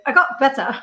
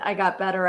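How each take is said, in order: First: It is said in a Monty Python character voice. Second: It is said in a normal reading voice.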